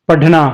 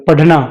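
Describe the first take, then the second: Both takes have the same delivery.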